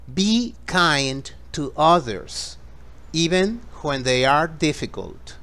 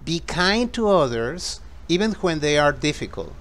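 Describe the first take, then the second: First: It is spoken slowly and gently. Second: It is spoken at a faster pace. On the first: "suave y luego más rápido" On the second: "más rápido"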